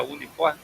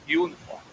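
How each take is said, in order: First: Said in the usual way. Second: "uniforme" said the English way, like "uniform" with a yoo sound; English pronunciation. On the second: Shown as a demonstration. Instructor showing students the English "uniforme". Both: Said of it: "mas em inglês".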